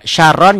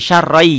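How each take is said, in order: First: The word ends with an n sound. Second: The word ends with a y sound. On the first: This is how it is written. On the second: This is how it is recited.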